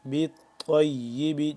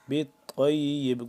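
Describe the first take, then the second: First: The word ends on a short final vowel. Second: The word ends on a bouncing, echoing b. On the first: The reading continues without stopping. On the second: The reader stops at this word.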